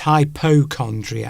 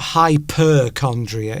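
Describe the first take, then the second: First: The word begins with the sounds hypo. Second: The word begins with the sounds hyper. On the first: The speaker calls it right. "It's hypochondriac" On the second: The speaker calls it wrong. "it's not hyperchondria"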